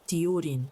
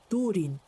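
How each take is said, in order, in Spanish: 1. La primera vocal tiene una y antes de la u. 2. La primera vocal es una u simple. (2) "ha de pronunciarse U"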